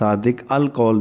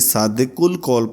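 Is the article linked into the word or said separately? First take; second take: separately; linked. First: The article 'al' is said as a separate word. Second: The article is linked as 'ul' into one word. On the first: The speaker calls it wrong. "सादिक अल कौल नहीं पढ़ा जाएगा" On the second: The speaker calls it right. "यानी सादिकुल कौल पढ़ा जाएगा"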